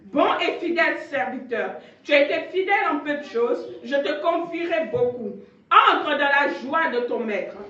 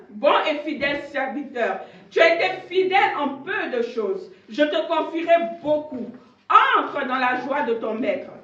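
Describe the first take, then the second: Both takes have the same delivery.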